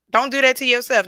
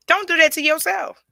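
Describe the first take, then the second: First: "that" stressed again, a little less high; emphatic repeat. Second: "that" leaned on hard, pitched up high; emphatic. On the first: Repeating the advice to viewers, "that" stressed less high. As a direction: repeat it, "that" still leaned on. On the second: Telling viewers to stop self-talk, "that" stressed high and loud. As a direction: hit "that" firmly, high and loud. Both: Shown as a demonstration.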